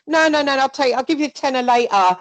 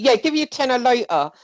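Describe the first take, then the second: First: Higher and louder, pushy and breezy; mock pushy taker. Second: Higher, louder, offhand promise; mock breezy taker. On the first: Acting the grabber at a friend's house, higher, louder and breezy. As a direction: brush off the objection, grabbing it anyway. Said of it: "like, literally". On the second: Shown as a demonstration. Showing Jonna how the grabber says it, higher and louder. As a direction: toss the promise off lightly. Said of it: "like that".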